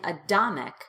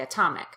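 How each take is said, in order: First: The middle consonant is a soft D sound. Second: The middle consonant is a crisp, popped T. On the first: The speaker calls it wrong. "I'm not saying atomic" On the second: The speaker calls it right. "I say atomic"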